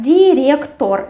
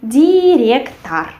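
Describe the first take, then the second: First: Director spelt out as "di-ryek-TOR"; as written, with O. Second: Director as "di-ryek-tar"; as spoken, with A. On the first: Teacher reads it as written, with O. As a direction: clear final O in director, rolled R. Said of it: "We write director". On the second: Teacher shows how it is said, with A. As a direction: draw out director syllable by syllable, final vowel an A. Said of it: "but we say director". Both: Shown as a demonstration.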